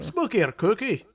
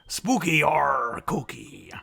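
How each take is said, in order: First: It is said in a Scottish accent. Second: It is said in a pirate-style accent. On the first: "Nah, that was Scottish" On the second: "Was that a pirate?"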